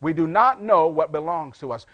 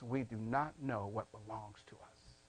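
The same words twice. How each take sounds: First: Firm, full-voiced restatement; emphatic repeat. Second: Very soft, low and falling; hushed preaching. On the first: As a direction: drive the point home, stressing not. Same point repeated at full voice. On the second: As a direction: let the sobering point sink almost to a murmur. Sobering point, said low then repeated. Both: Real, not acted.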